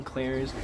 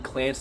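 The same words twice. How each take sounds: First: "Clarence" said fully in two syllables, KLARE-ence; full two-syllable name. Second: "Clance" said as one clipped syllable, klanss; one-syllable nickname. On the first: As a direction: give "Clarence" both its syllables, softer. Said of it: "you said my name with two syllables". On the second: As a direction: squeeze the name into "Clance", one beat. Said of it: "He called him Clance the whole movie". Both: Retold or imitated.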